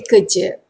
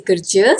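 First: "kerja" with a silent r, like keh-ja; R dropped. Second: "kerja" with the r heard before the j; R sounded. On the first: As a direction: leave out the r in "kerja", kuh-ja. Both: Shown as a demonstration. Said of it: "Sometimes are not that audible".

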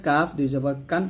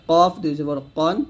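First: কাফ light k with open a, ending কান; thin kāf. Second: কফ thick, from far back, ending কন; heavy qāf. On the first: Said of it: "পাতলা করে". (কাফ পাতলা করে) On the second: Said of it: "দেখুন কফটা মোটা করতে হবে". (কফ মোটা করে) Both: Shown as a demonstration.

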